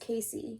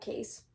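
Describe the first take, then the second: First: The name is said with two syllables. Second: The name is said with one syllable. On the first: The speaker calls it right. "it's Casey" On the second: The speaker calls it wrong. "not Case. Oh, my bad"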